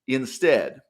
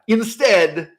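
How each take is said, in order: First: Said in the usual way. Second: "Instead" punched out, louder and higher; loud emphatic. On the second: Real, not acted. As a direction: hit "Instead" hard, like slamming a door. Repeated word, first take.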